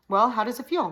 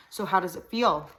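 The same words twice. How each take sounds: First: Loud, higher Ozark twang; louder demand. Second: Hill-country Ozark twang, nasal. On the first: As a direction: bark the question louder. Repeats question, demanding. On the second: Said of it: "in a high nasal twang". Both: A narrator's reading.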